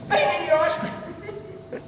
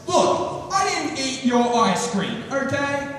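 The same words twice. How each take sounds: First: Much higher, slow squeaky plea; hammed-up desperate lie. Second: Higher-pitched, drawn-out defensive insistence; mock angry defence. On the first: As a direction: squeak out the false oath, slowly. Swearing a desperate lie to friend. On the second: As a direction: act cornered and push back hard. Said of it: "get up in his face and get angry".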